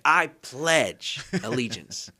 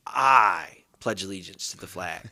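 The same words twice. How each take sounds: First: "pledge" punched, said very slowly; slow recital with the weight moved onto "pledge"; stress on pledge. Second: "I" leaned on, slow and deliberate; slow reading with the weight on "I"; stress on I. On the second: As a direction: hit the word "I" hard and take it slowly. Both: Shown as a demonstration. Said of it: "emphasize a different word every time".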